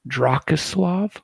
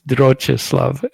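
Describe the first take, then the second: First: The name begins with a 'drak' sound. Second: The name begins with a 'droch' sound. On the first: The speaker calls it wrong. "I pronounced it wrong" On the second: The speaker calls it right. "It's Drochislav"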